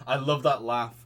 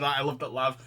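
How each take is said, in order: First: "that" punched and louder; stress on THAT. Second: "I" lifted, rising end; stress on I. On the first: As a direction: hit "that" in "I love that laugh". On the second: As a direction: lean on "I" in "I love that laugh". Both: Shown as a demonstration.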